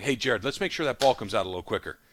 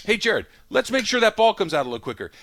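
First: Said in the usual way. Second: Higher, tighter repeat of the same request; strained patience. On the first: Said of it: "Sean McVay is looking at Jared Goff". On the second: Retold or imitated. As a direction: coach holding his temper a second time. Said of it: "Next week".

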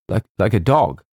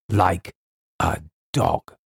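First: Stammered, incredulous question; hesitant repeat, lifted on "dog"; faltering. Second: Grim word-by-word confirmation; deliberate repeat. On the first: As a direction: falter on the first word, then ask. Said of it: "faltered James". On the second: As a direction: separate the words, dropping on "dog". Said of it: "said Colonel Carteret". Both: A narrator's reading.

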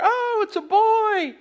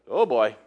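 First: Much higher, slow squeal of joy; hammed-up thrilled parent; family cheering the blue smoke; gender-reveal delight. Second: Lower, deflated uh-oh; mock dread as the fire starts; family watching the brush catch fire; dismayed oh boy. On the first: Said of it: "they're like". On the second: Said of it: "the people were like".

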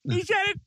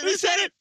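First: "He said it" very high, leaning on "said"; excited stress on said. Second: "he said it" very high, landing hard on "it"; excited stress on it. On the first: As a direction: squeal it, hitting "said" hardest. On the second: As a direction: squeal it, punching "it" at the end. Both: Real, not acted. Excited repeat of a quote.

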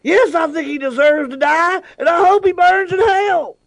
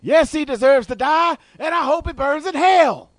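First: Samuel L. Jackson voice. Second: High, slow Jackson impression; Samuel L. Jackson voice. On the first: Pretend. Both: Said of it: "Samuel, what do you think".

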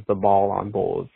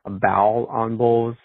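First: Said in the usual way. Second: "Bowl on Bulls" with a rounded bow vowel; the Bulls nickname said Bowl. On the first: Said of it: "I look at it as ball". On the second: Retold or imitated. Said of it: "pronounces it literally as bow".

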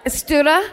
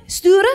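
First: "Stura?" tried with a questioning rise and a wrong final vowel; unsure attempt at Sture. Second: "Sture" said higher and louder, with careful stress on the name; corrected Sture. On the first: Host attempts the Swedish name Sture before a listener corrects her, unsure and rising. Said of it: "she pronounced that I do my best". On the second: After the audience corrects her, the host carefully says the name again. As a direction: land the corrected Swedish name "Sture" deliberately and a bit loudly. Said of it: "then she fucking corrects me". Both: Shown as a demonstration.

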